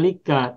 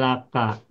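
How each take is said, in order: First: The first vowel is an 'i' sound. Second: The first vowel is an 'a' sound. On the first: The speaker calls it wrong. "tidak boleh dibaca lika" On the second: The speaker calls it right. "tapi menjadi laka"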